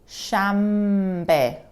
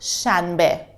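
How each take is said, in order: First: An m sound comes before the b. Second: An n sound comes before the b. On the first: The speaker calls it right. "We say shambe" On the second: The speaker calls it wrong. "I pronounce it shanbe. But in reality, the sound is a little bit different"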